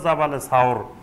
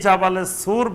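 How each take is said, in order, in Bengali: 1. দ্বিতীয় শব্দটি 'sawr' হিসেবে উচ্চারিত হয়। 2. দ্বিতীয় শব্দটি 'sur' হিসেবে উচ্চারিত হয়।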